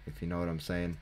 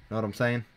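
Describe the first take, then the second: First: Said in the usual way. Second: Higher, louder, teasing rise on saying; suggestive. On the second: Pretend. Gamer teasing viewers with a mock-suggestive rise. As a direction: nudge the viewers with a wink in the voice.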